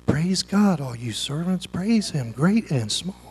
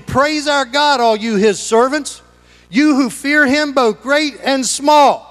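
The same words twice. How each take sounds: First: Much softer, lower, lifeless; mock half-hearted praise; limp mumble. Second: Higher, slow booming proclamation; rising ringing call; proclaiming. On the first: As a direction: say it like nobody cares. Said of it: "I don't think he said". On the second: Acted. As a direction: announce it from the throne. Voice from the throne, proclaimed.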